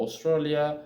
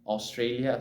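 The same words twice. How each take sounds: First: "Australia" with a short "eh" in "stra"; slip on Australia. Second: "Australia" with a clear "ay" in "stray"; corrected pronunciation. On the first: Learner listing countries slips on "Australia", mispronounced as "aw-STRELL-ya". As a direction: stumble over "Australia", saying it like "aw-STRELL-ya". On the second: Learner fixing own slip, "Australia" re-said as "aw-STRAY-lee-uh". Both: Real, not acted.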